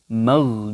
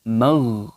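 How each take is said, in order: The two takes are said the same way.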